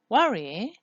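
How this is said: The pitch falls then rises.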